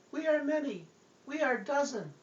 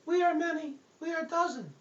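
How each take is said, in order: First: High, tiny demon voice much higher; eerie little voice from within; little possessed voice. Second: Very high tiny demon voice; high eerie little voice; little possessed voice. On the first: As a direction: squeak like a small spirit inside you. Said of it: "I heard this voice". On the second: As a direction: squeak it out like a small spirit. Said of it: "This little voice was coming out of me". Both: Acted.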